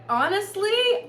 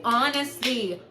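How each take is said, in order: First: HONESTLY high and loud, rising at the end. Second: HONESTLY near usual pitch, falling at the end. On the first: Boasting of more suitors than ex, rising HONESTLY. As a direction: lift HONESTLY right up like a question. First of two takes, candid boast. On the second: Boasting of more suitors than ex, falling HONESTLY. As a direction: bring HONESTLY down as a settled statement. Second take, settling the boast. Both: Real, not acted.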